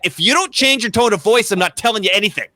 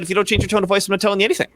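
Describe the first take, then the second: First: It is said with a raised voice. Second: It is said at normal volume.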